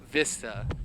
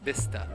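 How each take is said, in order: First: The word starts with a V sound. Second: The word starts with a B sound. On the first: This is how English speakers say it. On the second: This is how Spanish speakers say it.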